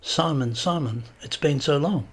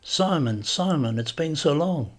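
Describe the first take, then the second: First: "Simon, Simon, it's been so long" said over, each Simon set apart and falling; reiterated with emphasis. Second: Put-on lightly done Catalan accent, higher at the end; thick Catalan accent. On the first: Spaniard repeating "Simon, Simon, it's been so long" to his guest, with emphasis. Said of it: "reiterated with emphasis". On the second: Spaniard embracing Simon at the door, thick Catalan accent. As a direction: greet an old friend in a Catalan accent. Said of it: "in a thick Catalan accent". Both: A narrator's reading.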